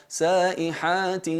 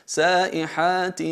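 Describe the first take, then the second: The two takes are said the same way.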